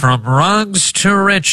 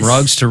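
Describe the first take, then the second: First: It is said in an old-timey radio voice. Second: It is said in a plain, normal voice.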